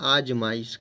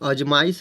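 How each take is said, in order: First: The first vowel is long. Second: The first vowel is short. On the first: The speaker calls it right. "इसको बोलते हैं आजमाइश" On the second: The speaker calls it wrong. "अजमाइश नहीं होता है दोस्तों"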